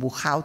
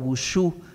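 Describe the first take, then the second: First: The name is pronounced the Flemish way. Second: The name is pronounced the French way. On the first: "si lo decimos en flamenco" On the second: "si lo queremos pronunciar en francés"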